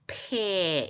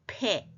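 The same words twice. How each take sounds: First: The vowel is drawn out longer. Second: The vowel is kept short. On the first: It names the letter of the alphabet. "점 두 개짜리가 조금 더 길으니까 알파벳을 의도적으로 구분하려면 폐 이렇게 하고" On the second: It is the word for mouth. "입은 폐 이렇게"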